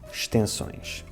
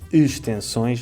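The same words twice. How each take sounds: First: The opening vowel sound is dropped entirely. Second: The opening vowel sound is clearly pronounced. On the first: The speaker calls it right. "mas sim extensões" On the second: The speaker calls it wrong. "Não dizemos extensões"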